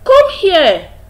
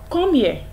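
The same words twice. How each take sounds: First: It is said in a warm, inviting tone. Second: It is said in a stern, reproachful tone. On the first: The listener is welcome to come. "it's welcoming, it's inviting" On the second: The listener has done something wrong. "by that you mean the person has faulted"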